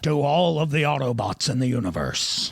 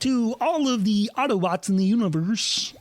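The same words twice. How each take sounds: First: It is said in an Optimus Prime impression. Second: It is said in a Kermit impression.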